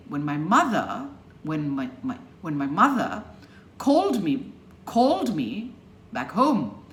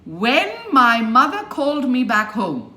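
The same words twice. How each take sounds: First: "when my" light, stress on "mother" and "called"; weak small words, punched "called" and "home"; shrunk "when". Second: Loud, "when" stretched and heavily stressed; over-stressed "when", every word loud; unshrunk "when". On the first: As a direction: slip over "when my", hit "mother". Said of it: "So you shrink it". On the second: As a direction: lean hard on "when" and keep pushing. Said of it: "No. So you shrink it". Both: Shown as a demonstration.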